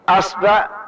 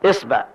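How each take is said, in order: First: The first vowel is a. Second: The first vowel is i. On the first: "ثم نأتي بفتح الهمزة ونقول أصبع" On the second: "نأخذ كسر الهمزة"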